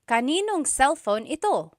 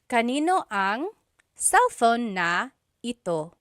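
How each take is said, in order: First: Words are merged and na is dropped. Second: Every word is said in full, including na. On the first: This is how it is said in casual conversation. "just quickly speaking, someone might say" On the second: This is the technically correct form. "technically there is a na"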